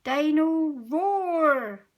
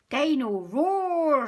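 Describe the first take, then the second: First: Slow, higher, louder gleeful cry; a toddler thrilled by his new toy; stretched-out delighted "Dino Roar"; excited. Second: George calling. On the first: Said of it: "says George excitedly". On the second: George calls his toy. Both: A narrator's reading.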